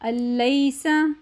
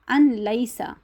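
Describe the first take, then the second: First: The n merges into a doubled l without nasality. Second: The n is pronounced separately before the l. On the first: The speaker calls it right. "तशदीद के साथ मिलाना है लेकिन गुन्ना नहीं करना" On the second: The speaker calls it wrong. "जो गलत तरीका है वो ये है"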